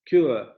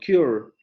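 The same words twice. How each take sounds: First: The word ends without an r sound. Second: The word ends with an r sound. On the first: "Y esta otra palabra se pronuncia cure" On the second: "con ese rotacismo al final de la sílaba"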